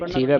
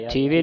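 First: ਥੀਵੈ ending in an open "ai"; final open ai. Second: ਥੀਵੇ ending in a close "e"; final e. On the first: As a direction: open the end of ਥੀਵੈ to "thee-vai". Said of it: "ਥੀਵੈ ਪੜ੍ਹਨਾ". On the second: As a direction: demonstrate mistaken ਥੀਵੇ, "thee-ve". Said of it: "ਥੀਵੇ ਨਹੀਂ ਪੜ੍ਹਨਾ". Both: Shown as a demonstration.

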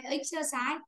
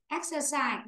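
First: "exercise" wrongly opening on an i sound; mispronounced first vowel. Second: "Exercise" opening on a clear e sound; correct first vowel. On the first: Teacher shows the mistake, "exercise" with i at the front. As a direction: start "exercise" as ix- instead of ex-. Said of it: "chứ không phải âm y". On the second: Teacher corrects the class, "Exercise" with an e at the front. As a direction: start "Exercise" with an open e. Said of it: "Ở đây là âm e". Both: Shown as a demonstration.

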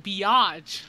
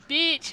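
First: "biatch" stretched slowly into bee-ATCH; biatch in two syllables. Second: "bitch" said short, as one syllable. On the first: Teacher correcting kids, drawn-out two-syllable "biatch". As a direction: draw out "biatch" with an open second syllable. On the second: Kids quote the teacher, one-syllable "bitch". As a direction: say "bitch" the standard way, loud and high. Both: Retold or imitated. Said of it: "No, I said biatch".

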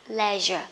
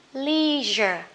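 First: Slow LEISURE, "LEH-zher"; short E in LEISURE, said slowly; British leisure. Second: Very slow LEISURE, "LEEE-zher"; American leisure. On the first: (đọc chậm LEISURE kiểu Anh, "le-giơ") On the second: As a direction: stretch the long EE in LEISURE. (đọc chậm LEISURE kiểu Mỹ, "li-giơ") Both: Shown as a demonstration. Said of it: "hay là".

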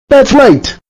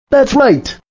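First: "That's right" snapped out louder and furious. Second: A curt, mad "That's right" at normal loudness; "That's right" said flatly mad, not raised. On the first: Computer voice scolding the user, now furious. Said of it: "I am now furious at you". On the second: Computer voice announcing it is now mad. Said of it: "I am now mad at you". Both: Acted.

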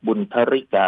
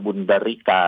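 First: บุญทริกา with an aspirated t; ทอทหาร reading. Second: บุญดริกา with a voiced d; ดอเด็ก reading. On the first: Lecturer gives one accepted reading, บุญทริกา with aspirated t. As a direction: puff the ท in บุญทริกา. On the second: Lecturer gives the alternative reading, บุญดริกา with voiced d. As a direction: say บุญดริกา with d, no puff of air. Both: Shown as a demonstration. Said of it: "อ่านได้ทั้งสองอย่าง ทั้งสองแบบ".

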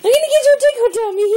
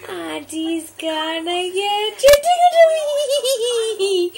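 First: Quick, loud, high tease; excited fast tease. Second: Sung, slow singsong tickle threat; sung, stretch it out in a playful singsong; sung, singsong teasing. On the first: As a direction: rush it out gleefully. Fast excited tickle threat. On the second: Playful tickle game with baby. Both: Real, not acted.

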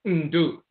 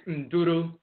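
First: "Ndu" as n-DOO, no roo; Akwamu pronunciation. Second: "Nduru" as n-DOO-roo; Asante pronunciation. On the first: Lecturer restating the contrast, "Ndu" as n-DOO. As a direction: hum into one doo on "Ndu". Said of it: "in Akwamu". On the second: Lecturer restating the contrast, "Nduru" as n-DOO-roo. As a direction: keep the final roo on "Nduru". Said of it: "So Asante is". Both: Shown as a demonstration.

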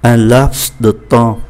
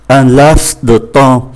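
First: Un laps de temps, slow, the final s of laps sounded; careful teacher repeat of Un laps de temps; French pronunciation demo. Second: Un laps de temps, slow, the final s of laps sounded; careful teacher demo of Un laps de temps; French pronunciation demo. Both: Shown as a demonstration. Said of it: "chúng ta cũng phải phát âm cho đúng".

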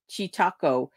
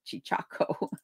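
First: "Chichaco" said with a T in the middle, like "chee-TAH-ko"; taco pun. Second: "Chichaco" with a CH in the middle, like "chee-CHAH-ko"; usual word, contrasted. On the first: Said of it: "someone who's new to tacos as opposed to". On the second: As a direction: say "Chichaco" with a second ch sound, softly. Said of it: "as opposed to Chica-, Chichaco". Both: Shown as a demonstration.

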